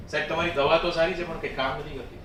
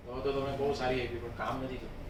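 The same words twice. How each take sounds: First: Openly voiced complaint with a dig; mildly sarcastic complaint; sarcastic taunt. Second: Very soft, low, quick veiled taunt; hushed, lowered polite complaint; soft sarcasm. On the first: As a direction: deliver a quick, pointed taunt to the doctor. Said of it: "ક્યારેક ક્યારેક tone આવશે". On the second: Acted. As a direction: slip the dig in softly, dropping almost to nothing. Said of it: "softness".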